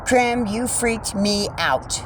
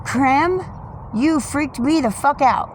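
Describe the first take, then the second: First: Slow, gentler telling-off after the scare; real relief after a scare; calmer repeat. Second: Loud, high startled cry; real shock from the bird; startled outburst. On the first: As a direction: let the fright drain, slowly. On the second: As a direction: blurt it out right after a fright. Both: Real, not acted.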